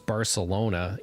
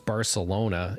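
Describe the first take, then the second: First: The c is said as an s sound. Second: The c is said as an s sound.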